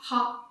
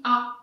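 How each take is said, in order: First: Ha with a breathy h sound; ha said with a voiced h, the wrong way; wrong aspirated ha. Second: A said as a bare vowel with no h; A with no breath before it; silent h. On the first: Teacher showing the wrong aspirated ha. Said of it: "on dit pas ha". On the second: Teacher giving the right silent h reading. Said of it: "on dit A". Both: Shown as a demonstration.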